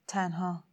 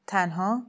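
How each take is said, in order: First: Soft, falling statement on تنها; quiet confirmation. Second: Rising question on تنها. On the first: Woman confirms she came alone, quietly resigned. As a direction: answer تنها softly as a settled fact. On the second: Sayyid checks that she is alone, questioning. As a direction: query تنها with the pitch lifting at the end. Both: A narrator's reading.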